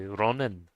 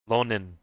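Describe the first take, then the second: First: The first sound is a clear R. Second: The first sound is not a clear R. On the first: "You can also say Ronin" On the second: "You don't just have to say um"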